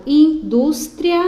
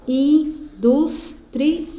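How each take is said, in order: First: "indústria" split as in-dus-tria; louder, higher "indústria", i and a in one syllable; final vowels joined. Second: Slow "indústria" broken into in-dus-tri-a; "indústria" in four higher, drawn-out beats; four separate syllables. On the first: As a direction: punch out "indústria" in three beats, tria as one. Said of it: "juntar o a na mesma sílaba". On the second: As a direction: say "indústria" with a pause after each syllable, a alone. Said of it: "se eu for separar aqui". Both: Shown as a demonstration.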